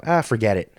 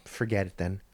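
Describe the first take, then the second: First: A louder, scornful wave-off; mock dismissive "Ah, forget it"; dismissive brush-off. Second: A quieter, sulky "Forget it then"; mock sulky dismissal; muttered brush-off. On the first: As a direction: toss it off like he's done with you. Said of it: "Or if you had your hand out". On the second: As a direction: mutter it off under the breath.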